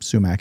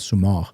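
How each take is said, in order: First: It is pronounced the English way. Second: It is pronounced the Farsi way. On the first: "the way you pronounce it in English" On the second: "in Farsi we call it sumac"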